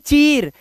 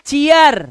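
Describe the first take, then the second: First: The vowel is a single long ee sound. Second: The vowel glides from ee into uh. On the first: The speaker calls it wrong. "ना कि चीर" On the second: The speaker calls it right. "इसे पढ़ेंगे चीयर"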